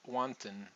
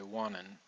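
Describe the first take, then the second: First: The T after the N is clearly pronounced. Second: The T after the N is dropped entirely. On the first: "instead of wantin" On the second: "the T after the N, we're not going to say that"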